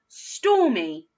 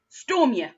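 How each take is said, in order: First: The word ends with an 'ee' sound. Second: The word ends with a 'yuh' sound. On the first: The speaker calls it right. "with the E sound" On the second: The speaker calls it wrong. "first with the y"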